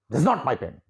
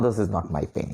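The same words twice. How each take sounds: First: It is said in a sharp, angry tone. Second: It is said in a gentle, polite tone. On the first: "And when you become angry" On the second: "in a very polite manner you are saying"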